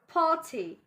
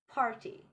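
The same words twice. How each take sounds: First: The R after the vowel is silent. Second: The R after the vowel is sounded. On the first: The speaker calls it right. "R after vowel, A. We won't pronounce it. We'll pronounce it like" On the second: The speaker calls it wrong.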